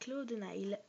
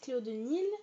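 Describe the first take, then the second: First: The last word sounds like 'nile'. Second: The last word sounds like 'neel'. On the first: This is the correct form of the name. The speaker calls it right. "je vous dis que c'est Cléo de Nile" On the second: This is how some people say the name. The speaker calls it wrong. "ceux qui disent Cléo de Nil"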